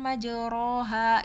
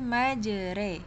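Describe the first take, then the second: First: The vowel after r is an open a. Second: The vowel after r is bent toward e. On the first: "Ini kan majoroha gitu kan" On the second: "dibaca seperti e orang timur"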